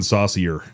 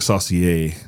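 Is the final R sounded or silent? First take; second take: sounded; silent. First: It is said the American way, final R sounded. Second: It is said the French way, final R silent. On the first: "It's pronounced in American saucier. Like I like my spaghetti saucier" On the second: "it looks like saucier. Like it should have the little chingus on the E"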